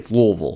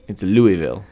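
First: It is said the way Kentucky locals say it. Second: It is said the way outsiders say it. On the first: The speaker is in Kentucky. "When you're in Kentucky" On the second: The speaker is outside Kentucky. "But if you're outside of Kentucky"

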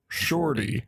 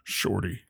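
First: It is said in a normal speaking voice. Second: It is said in a dramatic horror-trailer voice.

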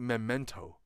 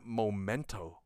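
First: The first syllable sounds like 'mem'. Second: The first syllable does not sound like 'mem'. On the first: "Because it's M-E-M" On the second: "a lot of people call it Memento"

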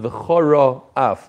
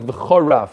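First: The two words are said clearly apart. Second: The two words are run together as one. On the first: The speaker calls it right. "instead of v'choraf" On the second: The speaker calls it wrong. "It sounded like v'choraf"

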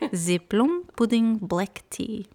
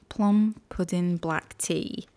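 First: It is said with a Russian-sounding accent. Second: It is said with a British accent. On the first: The speaker calls it wrong. "I went like Russian there for a second" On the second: The speaker calls it right. "Now I have to get back into my British accent mindset"

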